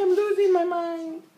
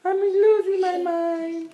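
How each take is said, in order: First: Higher mock wail over the crying; raised pretend complaint for the baby; voicing crying baby. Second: Put-on higher, louder and slow, speaking for the baby; drawn-out mock complaint. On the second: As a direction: stretch the pretend baby complaint loudly.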